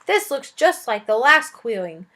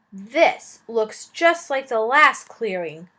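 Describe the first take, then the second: First: "clearing" said again carefully in the reading accent; accent restored. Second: Clearing said with a flat, unaccented vowel; "clearing" uitgesproken zonder het accent, vlak; lost accent. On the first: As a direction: redo "clearing" with the proper accent back. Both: Shown as a demonstration. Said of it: "lost my accent".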